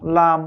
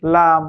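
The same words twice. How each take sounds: No difference in how they are said.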